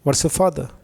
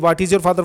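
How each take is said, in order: First: The first two words are joined into one. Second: Each word is said separately and fully. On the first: "ये एक अलग चीज है" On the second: "second है reading word to word"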